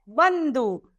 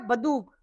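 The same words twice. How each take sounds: First: The first syllable has a nasal sound. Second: The first syllable has no nasal sound. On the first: The speaker calls it right. "सही शब्द क्या है? ... इस पर हमें अंक की मात्रा लगानी पड़ेगी" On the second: The speaker calls it wrong. "अगर हम अंक की मात्रा नहीं लगाएंगे तो क्या हो जाएगा?"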